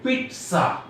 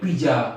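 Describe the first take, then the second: First: The middle consonant is a ts sound. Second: The middle consonant is not a ts sound. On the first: The speaker calls it right. "দন্তস্বয়ের মতো উচ্চারণ হবে পিৎসা" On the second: The speaker calls it wrong. "কেউ বলে পিজা"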